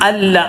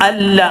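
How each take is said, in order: Both takes have the same delivery.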